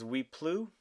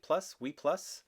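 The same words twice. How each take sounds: First: "Plus" said "plu", silent s, French style; French-style Oui Plus. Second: "Plus" said like English "plus", s sounded, questioning rise; second guess at "Oui Plus" with English "plus"; English-style Plus. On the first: Reading the perfume name aloud, unsure French pronunciation. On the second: Checking the perfume name with viewers, unsure English pronunciation. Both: Shown as a demonstration. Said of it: "Is that how you say it?".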